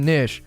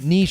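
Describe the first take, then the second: First: The word is said the older English way. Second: The word is said the French-influenced way. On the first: This is the historical pronunciation. "Historical pronunciation has been niche" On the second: This is a newer pronunciation. "niche is a relative newcomer... under the influence from French pronunciation conventions"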